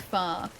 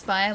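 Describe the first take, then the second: First: "fa" with a single open vowel; fire flattened to fa. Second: Said in the usual way. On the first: Shown as a demonstration. Streamer doubting such an accent exists, "fire" as "fa". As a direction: say "fa" as a long "fah", no glide. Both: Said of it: "accent that pronounces fire like fa".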